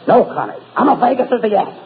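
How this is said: It is said with anger and feeling.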